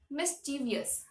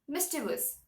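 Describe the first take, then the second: First: An extra vowel is heard before the ending. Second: No extra vowel is heard before the ending. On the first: The speaker calls it right. "The actual pronunciation should be mischievous" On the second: The speaker calls it wrong. "They forget to pronounce the I at the end of the word"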